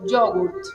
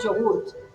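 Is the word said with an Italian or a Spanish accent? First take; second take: Italian; Spanish. First: It is said Italian-style, stressing yo and the T. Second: It is said with a plain Spanish accent. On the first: "En italiano sería acentuando el yo y acentuando la T" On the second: "nosotros decimos yogurt"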